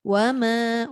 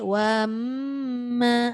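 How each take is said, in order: First: The m carries only a very brief nasal hum. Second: The m carries a long, drawn-out nasal hum. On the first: The speaker calls it right. "Boleh. ... tu ada" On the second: The speaker calls it wrong. "Yang tak boleh, ... tu tak boleh"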